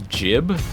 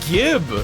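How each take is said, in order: First: The word begins with a J sound. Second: The word begins with a hard G sound. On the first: The speaker calls it wrong. "why would you say a J sound for a G?" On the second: The speaker calls it right. "It starts with G, it's obviously Gib"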